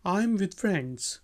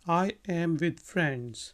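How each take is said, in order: First: I and am are joined into one syllable. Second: I and am are said as separate words.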